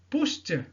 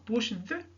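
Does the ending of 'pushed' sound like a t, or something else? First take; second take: t; something else. First: The ending is pronounced as a t sound. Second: The ending is not pronounced as a t sound. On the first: The speaker calls it right. "t ... le ed ici se prononce comme t" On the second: The speaker calls it wrong. "et non pas"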